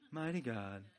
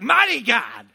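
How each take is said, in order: First: It is said in a flat, ordinary voice. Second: It is said with fervent, preaching energy. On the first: The speaker calls it wrong. "You can't say it in a normal voice" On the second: The speaker calls it right. "put the gospel in there"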